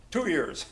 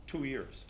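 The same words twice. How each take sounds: First: A higher, disbelieving question; incredulous echo. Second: Said in the usual way. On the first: Retold or imitated. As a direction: toss the words back in disbelief. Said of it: "He goes". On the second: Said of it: "He goes, uh".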